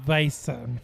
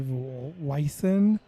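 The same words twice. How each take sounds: First: The word begins with a V sound. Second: The word begins with a W sound. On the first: The speaker calls it right. "It's a Weissen for sure" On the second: The speaker calls it wrong. "that's wrong"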